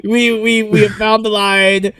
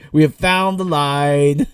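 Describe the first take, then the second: First: Higher, slower, louder pleading; mock alarm. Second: Said in the usual way. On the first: Podcaster dramatically warning author George, higher and slower. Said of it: "pleading with author George". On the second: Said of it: "repeat more calmly".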